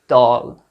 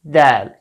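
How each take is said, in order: First: The vowel is heavy and dark. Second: The vowel is light and bright. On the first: The speaker calls it wrong. "Do not say dal" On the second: The speaker calls it right. "light or happy a sound"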